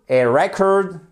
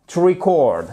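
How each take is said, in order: First: "record" said REC-ord, open e; stress on first syllable. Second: "record" said ree-CORD; stress on second syllable. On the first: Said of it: "l'accentuation sur la première syllabe". (« record » prononcé REC-ord, accent sur la première syllabe) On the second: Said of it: "ça se prononce exactement comme". (« record » prononcé ri-CORD, accent sur la deuxième syllabe) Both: Shown as a demonstration.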